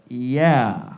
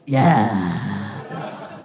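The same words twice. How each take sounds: First: It is said in a flat, ordinary speaking voice. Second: It is said in a playful, sultry bedroom voice. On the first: It is a sincere, hurtful agreement. The speaker calls it wrong. "But instead I was like, yeah. Which was uh, mean" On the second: It is a flirty, playful agreement. The speaker calls it right. "she wanted me to be like"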